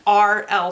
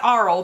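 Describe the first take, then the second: First: The two letters are said slowly and distinctly. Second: The two letters blur quickly into one syllable. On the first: The speaker calls it right. "So now I'm gonna start enunciating it like that" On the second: The speaker calls it wrong. "it's not Arl because I say it so fast"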